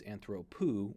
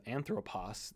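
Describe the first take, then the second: First: Anthropu stressed on the middle syllable, an-THRO-pu; stress on penult. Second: Anthropos stressed on its first syllable, AN-thropos; stress on antepenult. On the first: Teacher showing the accent migrate, anthropu stressed on THRO. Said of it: "to the penult". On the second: Teacher showing accent rules, anthropos stressed on AN. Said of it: "the accent migrates from the antepenult". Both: Shown as a demonstration.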